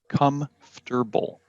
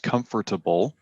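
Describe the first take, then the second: First: It is reduced to comf-ter-ble, without that vowel. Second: It is said as spelled, comfort plus able. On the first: The speaker calls it right. "People say comfortable. So it's F T E R" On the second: The speaker calls it wrong. "it's not pronounced comfortable"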